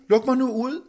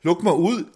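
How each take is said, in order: First: Indtrængende bøn. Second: "luk mig ud" råbt højt og lyst med tryk på "mig"; råb i panik, indespærret; panisk råb. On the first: Acted. Indespærret mand beder om at komme ud. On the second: A narrator's reading. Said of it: "råbte". ("mig" fremhævet i et højt, lyst panikråb)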